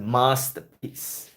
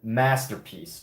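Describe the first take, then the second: First: The first vowel is long, as in father. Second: The first vowel is short, as in cat. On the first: The speaker calls it right. "but I should have said masterpiece" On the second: The speaker calls it wrong. "I said masterpiece"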